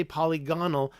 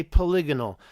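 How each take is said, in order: First: "polygonal" split like polly plus GON-al; rejected pronunciation. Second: "polygonal" stressed on the second syllable, LIG; preferred pronunciation. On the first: Streamer mocking up the unwanted way, "polygonal" as polly-GON-al. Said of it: "I don't say polygonal". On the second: Streamer giving their own way, "polygonal" as puh-LIG-on-al. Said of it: "I say polygonal". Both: Shown as a demonstration.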